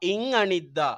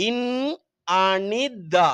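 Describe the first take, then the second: First: Said in the usual way. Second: இன் Anitha very slowly, with the first nasal held and each syllable apart. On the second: Shown as a demonstration. Teacher demonstrating pronunciation to pupils, இன் Anitha in slow separate syllables. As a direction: stretch out இன் Anitha piece by piece. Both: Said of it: "உச்சரிப்பு".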